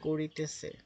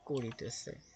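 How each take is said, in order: First: It is said with an English accent. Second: It is said with a native Bengali accent. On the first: This is how English speakers said it. "তারা ইংরেজের মতো করে বলতো" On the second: This is the proper Bengali word. "তার মানে করিতেছে"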